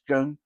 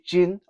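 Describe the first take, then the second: First: The word begins with a G sound. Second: The word begins with a J sound. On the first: The speaker calls it right. "the proper uh pronunciation is gung" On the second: The speaker calls it wrong. "some people say jin"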